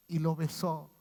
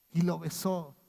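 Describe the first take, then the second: No difference in how they are said.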